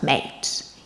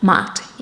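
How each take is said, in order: First: The vowel has a standard English quality. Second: The vowel has a Cockney diphthong quality. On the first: "instead of mate" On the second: "mat instead of mate"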